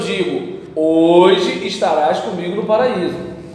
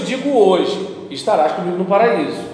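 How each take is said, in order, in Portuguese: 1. A pausa vem antes da palavra hoje. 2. A pausa vem depois da palavra hoje. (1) "Outra coisa eu digo, hoje estarás comigo no paraíso" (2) "Uma coisa eu te digo hoje, estarás comigo no paraíso"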